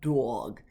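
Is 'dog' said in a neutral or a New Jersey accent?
New Jersey. The word is said with a New Jersey accent. The speaker calls it wrong. "not dog"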